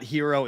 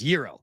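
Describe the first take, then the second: First: The word begins with an H sound. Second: The word begins with no G sound. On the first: The speaker calls it wrong. "It's not hero" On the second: The speaker calls it right. "The G is silent"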